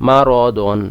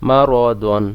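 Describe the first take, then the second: No difference in how they are said.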